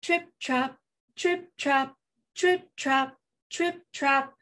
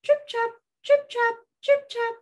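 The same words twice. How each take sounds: First: Measured mid-pitched trip-trap; even, rhythmic middle-goat hooves; medium hooves. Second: Tiny high-pitched trip-trap; high, dainty hoof sounds; small hooves. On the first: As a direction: tap out steady medium-sized hoofbeats. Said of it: "Can you do medium hooves?". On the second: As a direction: tap out little hoofbeats in a high voice. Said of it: "the little billy goat had small hooves". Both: Acted.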